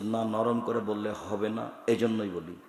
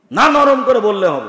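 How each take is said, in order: First: Low, soft and steady answer; calm reply. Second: Loud, high retort; shouting insistence. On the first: Preacher answering the shouting stranger, quiet and calm. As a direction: settle him down quietly. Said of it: "তখন আমি বলছি". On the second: Airport stranger insisting loudly to the preacher. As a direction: push back at him with a raised voice. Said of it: "যখন খুব চিৎকার দিয়ে বলছে". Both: Retold or imitated.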